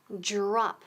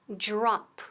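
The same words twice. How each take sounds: No difference in how they are said.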